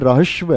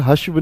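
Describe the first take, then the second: First: The r sound is said before the h. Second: The h sound is said before the r. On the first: The speaker calls it right. "रहस्व है" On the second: The speaker calls it wrong. "ये हश्व नहीं है"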